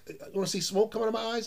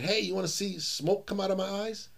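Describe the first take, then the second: First: Fast teasing grandpa. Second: Teasing grandpa voice. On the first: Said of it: "He says". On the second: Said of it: "and he said". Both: Retold or imitated.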